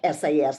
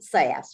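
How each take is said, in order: First: The name is spelled out letter by letter. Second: The name is said as a single word. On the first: The speaker calls it wrong. "you don't pronounce it like S A S, like I B M" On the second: The speaker calls it right. "You pronounce it S A S"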